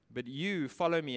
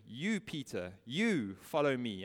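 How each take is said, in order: First: "you" leaned on, then follow me; "you" said firmly, set apart from the rest; stress on you. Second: "You" and "you" weighted, follow me slowed; slow down and press each "you"; "You, Peter, you" pointed at Peter; stress on you. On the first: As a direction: hit the word "you" as a command. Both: Acted. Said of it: "the emphasis is on the word you".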